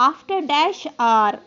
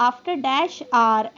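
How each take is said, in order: No difference in how they are said.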